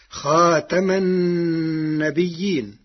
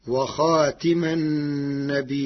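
First: Said in the usual way. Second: خاتم with i after ta, khatima; النبيين with long held i, then hamza: nabii-'in; Warsh reading. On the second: Shown as a demonstration. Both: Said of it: "بكسر التاء".

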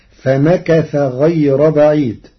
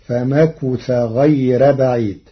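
First: Said in the usual way. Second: فمكث with a u on the kaf, famakutha; Warsh reading. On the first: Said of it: "قرأ ورش كلمة فمكث". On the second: Shown as a demonstration. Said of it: "بضم الكاف". (فمكث بضم الكاف)

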